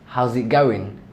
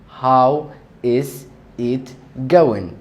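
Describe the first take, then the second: First: How and is are joined into one word. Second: How and is are said as two words.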